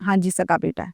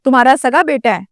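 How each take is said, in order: First: Retold low, soft answer; subdued reply. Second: Retold police question in usual voice. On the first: Father answers the police about his son, subdued. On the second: Police officer questions the father about his son, questioning. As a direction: put it as an officer's plain question. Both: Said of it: "تو police نے پوچھا".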